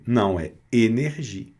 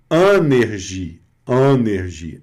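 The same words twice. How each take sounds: First: Energia with a closed first E; correct version. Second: Energia with an open first A-like vowel, said slowly; wrong version. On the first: Teacher correcting the wrong energia. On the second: Teacher showing the mistake to avoid. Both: Shown as a demonstration.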